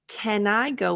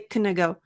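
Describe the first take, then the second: First: The word 'can' has a full, open vowel. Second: The word 'can' has a reduced, weak vowel. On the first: The speaker calls it right. "this one I would say" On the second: The speaker calls it wrong. "I wouldn't say"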